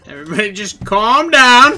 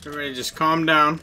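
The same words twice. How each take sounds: First: Loud and higher, rising at the end; raised, panicky plea. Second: Said in the usual way. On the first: Real, not acted. Hidden player as hunters close in, raised panicky plea. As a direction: say it much louder, pitch climbing. Repeats louder, hunters closing in.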